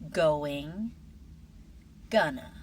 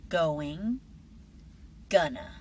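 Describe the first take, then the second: The two takes are said the same way.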